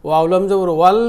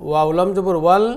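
The two takes are said the same way.

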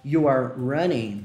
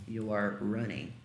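First: English phrase spelled out slowly; slow model sentence for the learner; slow clear demo. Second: A quiet echo of the model line; soft echo. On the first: Teacher models the English phrase, slow and clear. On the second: Teacher echoes the phrase softly after modelling it. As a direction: repeat it softer, half to yourself. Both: Shown as a demonstration. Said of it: "Eu poderia falar".

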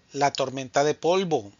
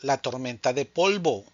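The two takes are said the same way.

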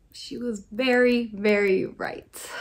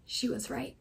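First: "very, very" leaned on and drawn out; slow, emphatic "very, very right"; stress on very. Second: Said in the usual way. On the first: Real, not acted. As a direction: press hard on both "very". Emphatic repeat of she was right.

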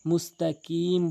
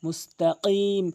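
First: মুস্তাকিম with a light front k; plain kaf in মুস্তাকিম; common mispronunciation. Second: Heavy qaf in মুস্তাকিম; correct qaf. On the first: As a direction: say মুস্তাকিম with an ordinary k. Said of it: "কফের জায়গায় কাফ এনে". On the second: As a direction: knock tongue root on palate for ক in মুস্তাকিম. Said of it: "জিহ্বার গোড়া উপরের তালুর সঙ্গে". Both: Shown as a demonstration.

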